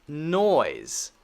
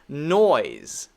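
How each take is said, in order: The two takes are said the same way.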